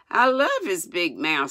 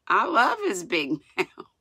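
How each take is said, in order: First: Said in the usual way. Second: Reading through a laugh. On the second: A narrator's reading. Reader amused by Mary's crush, laughing. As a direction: let a laugh break in near the end.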